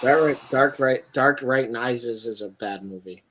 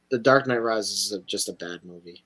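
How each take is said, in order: First: "Dark Right" slurred instead of Knight; tongue-tied slip. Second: "The Dark Knight Rises" said clearly; "Dark Knight" properly with the K silent; corrected title. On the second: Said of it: "it wasn't getting fixed in my mouth". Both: Real, not acted.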